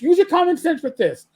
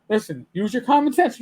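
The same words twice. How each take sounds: First: Higher and louder, pressing the point; louder insistence. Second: Said in the usual way. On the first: Real, not acted. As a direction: repeat it harder, almost shouting.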